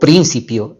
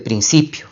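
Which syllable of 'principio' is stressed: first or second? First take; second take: first; second. First: The stress falls on the first syllable. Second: The stress falls on the second syllable. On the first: The speaker calls it wrong. "o principio en lugar de" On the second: The speaker calls it right. "en lugar de principio"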